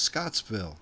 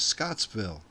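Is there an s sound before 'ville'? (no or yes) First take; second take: yes; yes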